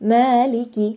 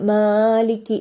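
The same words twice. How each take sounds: First: The long vowel is held for two beats only. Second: The long vowel is stretched out too long. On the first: The speaker calls it right. "രണ്ട് ഹർക്കത്ത് മാത്രം നമ്മൾ നീട്ടുക" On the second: The speaker calls it wrong. "കുറച്ചധികം നീട്ടിയോതല്. അത് തെറ്റാണ്"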